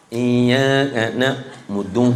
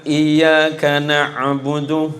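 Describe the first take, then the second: First: Iyyaka na'budu mangled by a stiff tongue, slow and lower; a student's tongue tripping over the verse; stiff-tongued recitation. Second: Slow, careful recitation; lightly voiced teacher modelling the verse; teacher reciting. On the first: Retold or imitated. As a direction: mumble na'budu like a clumsy beginner. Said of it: "Maklum lidah kelu". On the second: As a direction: spell it out like a Quran teacher. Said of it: "Gurunya bilang".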